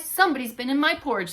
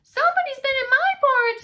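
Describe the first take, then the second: First: Gruff Papa Bear. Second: Very high loud whiny cub voice; Baby Bear discovering his empty bowl; squeaky Baby Bear. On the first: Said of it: "said Papa Bear". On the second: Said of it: "said Baby Bear". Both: Acted.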